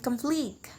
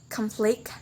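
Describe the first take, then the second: First: "conflict" stressed on the second syllable, con-FLICT; verb stress. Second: "conflict" stressed on the first syllable, CON-flict; noun stress. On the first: Teacher shows the verb form, stressing "-flict" in "conflict". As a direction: softly put the weight on "-flict" in "conflict". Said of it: "stress put in the second syllable". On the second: Teacher shows the noun form, stressing "con-" in "conflict". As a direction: put the weight on "con-" in "conflict". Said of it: "put in the first syllable". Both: Shown as a demonstration.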